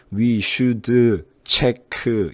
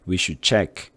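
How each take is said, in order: First: "should" and "check" said as 슈드 and 체크 with added vowels; slow, every final consonant given an extra 으; Korean-style pronunciation. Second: "We should check" linked with no added vowel, final d only held; quick single phrase, clipped endings; read as one unit. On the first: Teacher mocking the Korean way of reading it. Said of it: "이런 식으로 한국식으로 하지 말라고요". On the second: Teacher modelling the natural linked version. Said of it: "하나로 읽어주세요". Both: Shown as a demonstration.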